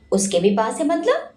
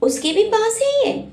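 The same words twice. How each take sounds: First: Said in the usual way. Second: Higher pitch, है rising in disbelief; stunned surprise. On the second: A narrator's reading. Virat learns Shanaya has the photo, stunned. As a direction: gasp out the question, shocked. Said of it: "Virat हैरानी से बोला".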